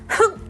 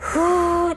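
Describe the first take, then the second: First: A short, sharp puff of breath. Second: A gentle, drawn-out stream of breath. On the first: The air is pushed in all at once. The speaker calls it wrong. "一気にやらないことです。ふっじゃなくて" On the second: The air is eased in gradually. The speaker calls it right. "ふーです"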